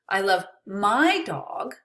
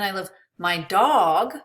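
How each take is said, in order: First: The word my carries the emphasis. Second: The word dog carries the emphasis. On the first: Another person's dog is not loved as much. "Maybe I don't love your dog" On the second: Another pet may not be loved. "Maybe I don't love my cat"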